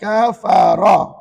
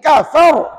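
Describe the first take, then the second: First: A vowel is sounded after the final r. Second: The final r has no vowel after it. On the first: The reader carries on without stopping. "Perkataan kafara" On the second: The reader stops at this word. "Wakafkan? Apalah kafara lagi?"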